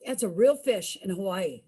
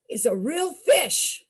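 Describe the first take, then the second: First: Said in the usual way. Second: Slow, with real stressed and higher. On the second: Shown as a demonstration. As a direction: lean on real to insist. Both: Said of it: "I'm not making this up".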